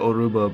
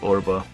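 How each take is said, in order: First: The middle u vowel is clearly pronounced. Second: The middle u vowel is dropped.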